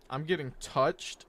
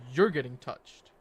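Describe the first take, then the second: First: Drawn-out "I'm getting touched?" rising at the end; incredulous echo question. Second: "You're" punched loud, falling to the end; corrective stress on YOU'RE. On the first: Streamer echoes viewer's remark, "I'm getting touched?" as a drawn-out rising question. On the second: Streamer corrects a viewer, "You're" stressed loudly, falling statement. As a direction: hit "You're" hard to turn it back. You got that wrong. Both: Real, not acted.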